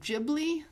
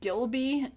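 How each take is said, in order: First: The name is said as 'Ghib-li', b before l. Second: The name is said as 'Gil-by', l before b. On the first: The speaker calls it right. "does he mean Studio Ghibli?" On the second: The speaker calls it wrong. "He mispronounced it"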